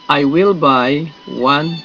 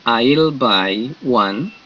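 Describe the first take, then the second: First: Will is said in full as a separate word. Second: Will is contracted and joined to I.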